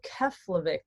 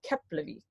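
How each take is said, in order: First: The middle consonant is an F sound. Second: The middle consonant is a P sound. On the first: The speaker calls it wrong. "it might look like you're flying into" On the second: The speaker calls it right. "but it's actually"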